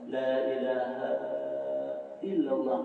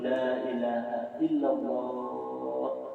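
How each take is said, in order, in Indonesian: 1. Pembukaan 'la ilaha' dibaca panjang. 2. Pembukaan 'la ilaha' dibaca pendek. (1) "nah itu tersalah" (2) "Nang baik itu"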